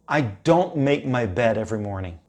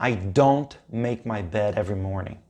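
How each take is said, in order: The two takes are said the same way.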